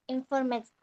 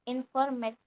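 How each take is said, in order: Both takes have the same delivery.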